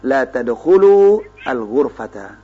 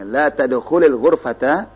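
First: The verb ends apart from the next word. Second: The verb runs straight into the next word.

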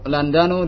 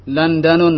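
First: The word ends in -u, without a final n. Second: The word ends in -un, with a final n. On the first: The speaker calls it right. "Yang benar adalah" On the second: The speaker calls it wrong. "la hadha khata"

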